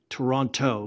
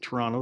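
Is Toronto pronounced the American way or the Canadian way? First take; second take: American; Canadian. First: It is said with an outsider's pronunciation. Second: It is said with the local Canadian pronunciation. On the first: This is how people outside Canada say it. The speaker calls it wrong. "We don't say Toronto" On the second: This is how Canadians say it. The speaker calls it right. "we say Toronto, like you did"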